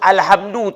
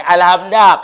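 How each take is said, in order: First: The word ends with a 'u' vowel. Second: The word ends with an 'a' vowel. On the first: The speaker calls it right. "Jadi harus alhamdu" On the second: The speaker calls it wrong. "tak boleh alhamda"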